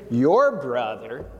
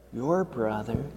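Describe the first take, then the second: First: Said in the usual way. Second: "your brother" dropped much softer; gentle softened echo; soft repeat. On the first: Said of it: "repeated for emphasis". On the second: Acted. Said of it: "repeated softer".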